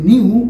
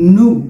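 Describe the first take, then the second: First: The word has a y glide before oo. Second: The word has plain oo with no glide. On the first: The speaker calls it wrong. "বেশিরভাগ মানুষই বলবে নিউ কারণ স্কুলে এটা এভাবে শেখানো হয়" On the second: The speaker calls it right. "But এটার উচ্চারণটা হবে"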